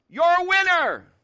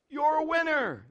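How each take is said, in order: First: High, loud, drawn-out shout; dad's demonstrating holler; calling out. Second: High, lighter repeat of a holler; echo calling back. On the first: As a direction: shout encouragement across a mountain. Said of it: "Watch this". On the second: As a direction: imitate a distant echo. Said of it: "the voice calls back". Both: Acted.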